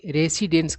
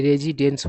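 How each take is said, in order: First: रेसिडेंस with a hissing s sound; wrong pronunciation. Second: रेजिडेंस with a clear z sound; correct pronunciation. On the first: Teacher showing the wrong way to say रेसिडेंस. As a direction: say रेसिडेंस with s, the common mistake. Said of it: "तो जो कि गलत उच्चारण होता है". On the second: Teacher giving the right form, रेजिडेंस with z. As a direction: say रेजिडेंस with z, carefully. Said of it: "सही उच्चारण क्या होता है". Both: Shown as a demonstration.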